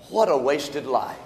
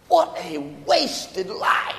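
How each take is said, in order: First: Low, soft reflection; subdued lament. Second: Slow, raised "What a wasted life", each word drawn out; emphatic lament. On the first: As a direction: say it low and soberly, under your breath. First take of a repeated lament. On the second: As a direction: stretch out "wasted life" slowly and higher. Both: Real, not acted.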